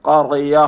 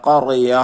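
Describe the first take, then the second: The two takes are said the same way.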